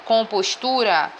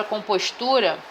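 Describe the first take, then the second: First: "Compostura" dita devagar, marcando o TU; sílaba tônica demonstrada. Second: Said in the usual way. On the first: Shown as a demonstration. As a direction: pronuncie "Compostura" devagar, com apoio na sílaba "tu". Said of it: "cada sílaba tem uma tonificação". ("Compostura" pausada, com a tônica em TU) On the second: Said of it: "a sílaba tônica dela é".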